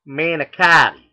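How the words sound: It is said in the West Coast way. "out here on the West Coast, it's manicotti"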